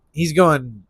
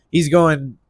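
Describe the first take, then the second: No difference in how they are said.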